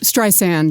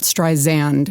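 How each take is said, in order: First: The second S is said light, like 'sand'. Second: The second S is said heavy, not like 'sand'. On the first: The speaker calls it right. "Think of the beach" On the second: The speaker calls it wrong. "not Streisand"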